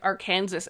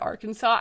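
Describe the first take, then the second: First: The word ends with a 'sas' sound. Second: The word ends with a 'saw' sound. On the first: The speaker calls it wrong. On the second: The speaker calls it right.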